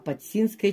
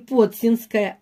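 First: The stress falls on the second syllable. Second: The stress falls on the first syllable. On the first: The speaker calls it right. "а подсинское чудо. Я даже вот букву такую большую выделила, что ударение ставить" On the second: The speaker calls it wrong. "Не подсинское"

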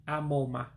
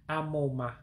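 Both takes have the same delivery.

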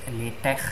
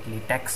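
First: The word ends in a rasping kh sound. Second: The word ends in a ks sound. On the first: The speaker calls it right. "It's the sound of chai in Latin or che in Arabic" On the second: The speaker calls it wrong. "that would be really wrong because it's not LaTeX, the rubber"

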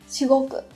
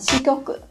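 First: The middle consonant is a voiced g sound. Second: The middle consonant is a voiceless k sound. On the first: The speaker calls it right. "trong trường hợp này nó sẽ đọc là shigoku" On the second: The speaker calls it wrong. "mọi người sẽ nghĩ là bây giờ cái này có thể sẽ đọc là shikoku"

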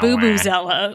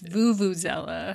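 First: The word begins with a B sound. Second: The word begins with a V sound. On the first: The speaker calls it wrong. "It's not Boobazella, like Boo Boo the Bear" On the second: The speaker calls it right. "It's Vuvuzella"

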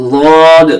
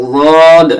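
No difference in how they are said.

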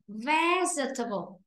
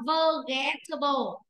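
First: The stress falls on the first syllable. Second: The stress falls on the second syllable. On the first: The speaker calls it right. "Từ đọc đúng này" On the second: The speaker calls it wrong. "ta không đọc là forgettable"

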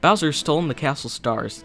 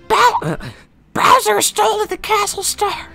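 First: It is said in his normal voice. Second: It is said in a put-on Toad voice.

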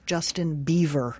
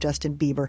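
First: The surname begins with a V sound. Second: The surname begins with a B sound. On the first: A child insists this is the name. The speaker calls it wrong. "my son insists that it's [name], with vengeance" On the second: This is the spelled form of the name. The speaker calls it right. "when I call him [name]"

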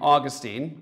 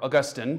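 First: The name is pronounced the speaker's own usual way. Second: The name is pronounced the way Scottish people say it. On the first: "I just adopted a little boy named Augustine" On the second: "however you strange Scottish people say it"

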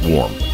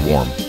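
Both takes have the same delivery.

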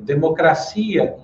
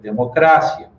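First: The stress falls where Portuguese places it. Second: The stress falls where Spanish places it. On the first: "democracia em português" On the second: "em espanhol vai se ler democracia"

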